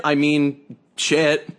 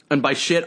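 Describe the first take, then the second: First: "shit" slow and heavy; stress on shit. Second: Said in the usual way. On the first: Shown as a demonstration. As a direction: drag out "shit" with weight.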